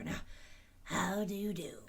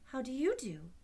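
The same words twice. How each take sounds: First: Husky whispered greeting; friendly husky hush; husky whisper asking how do you do; husky scarecrow. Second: Higher, louder girl's voice, voiced not whispered; polite girlish greeting; voiced girl's how do you do; polite Dorothy. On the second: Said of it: "replied Dorothy politely". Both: A narrator's reading.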